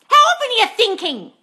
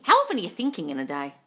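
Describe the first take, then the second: First: High, loud demanding question; frustrated outburst, pitched way up; exasperated shout. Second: Said in the usual way. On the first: Real, not acted. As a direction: yell the question at them. Exasperated question, then asked calmly.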